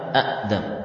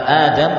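First: The first vowel is cut by a glottal stop. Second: The first vowel is long, with no glottal stop. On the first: This is the original underlying form. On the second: This is the form actually used. "Kata Adam"

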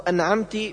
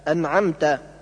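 First: The word ends in an i vowel. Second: The word ends in an a vowel. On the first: The speaker calls it wrong. "بكسر التاء" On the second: The speaker calls it right. "بدل فتحها"

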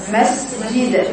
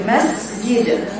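The two takes are said the same way.

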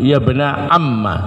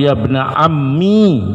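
First: The word ends in a short a vowel. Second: The word ends in a long i vowel. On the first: "ya-nya dibuang, mimnya di fathah" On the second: "ya'nya dipakai dan sukun"

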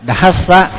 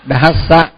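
The two takes are said the same way.

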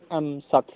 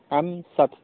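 Both takes have the same delivery.

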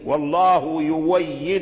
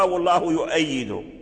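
First: The verb has a 'w' sound in the middle. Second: The verb has a glottal stop in the middle. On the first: It follows the Warsh recitation. The speaker calls it right. "فورش أبدل هذه الهمزة واو فقرأ يويد" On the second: It mixes the standard reading into the Warsh recitation. The speaker calls it wrong. "بعض الطلبة يقرأها والله يؤيد"

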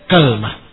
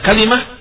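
First: The word starts with ka, with no vowel after l. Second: The word has three syllables, with a vowel after l. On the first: This is an accepted dialect form. "fathul kaf ... bersama sukunul lam" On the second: This is the most eloquent form. "Difathahkan di kafnya dan dikasrahkan lamnya. Hadza huwal afsah"

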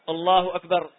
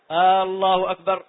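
First: The b sound in the last word is lengthened. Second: The opening vowel of the phrase is lengthened. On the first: It sounds like the word for drum. "مد الباء من قولي أكبر" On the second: It sounds like a question. "مد الهمزة"

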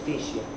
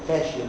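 First: The first vowel sounds like 'ee'. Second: The first vowel sounds like 'a'. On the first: The speaker calls it wrong. "نوت فيشيال" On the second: The speaker calls it right. "فاشيال نوت فيشيال"

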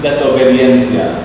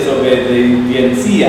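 First: The stress falls on the syllable 'dien'. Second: The stress falls on the syllable 'ci'. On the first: The speaker calls it right. "si no tiene acento, la pronunciación es desobediencia" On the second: The speaker calls it wrong. "Si tiene acento, sería desobediencia"

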